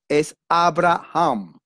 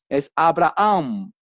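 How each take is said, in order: First: The h is sounded like a throaty j. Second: The h in the name is silent. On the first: "La H en inglés es J" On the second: "la H en español es muda"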